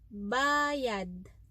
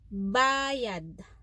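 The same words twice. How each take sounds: First: Said with the pronunciation meaning payment. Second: Said with the pronunciation meaning payment.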